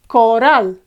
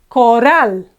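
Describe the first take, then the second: The two takes are said the same way.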